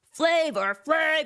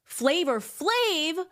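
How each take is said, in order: First: Emphatic name call. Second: Drawn-out name call. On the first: Host repeating [name], louder and slower. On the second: Host announcing [name] to viewers, high and drawn out. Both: Acted.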